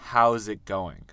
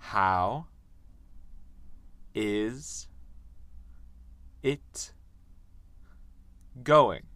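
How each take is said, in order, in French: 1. 'How is' se contracte en une seule syllabe courte. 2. 'How is' se dit en deux mots pleins. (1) "on dit how's" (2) "On ne dit pas how is"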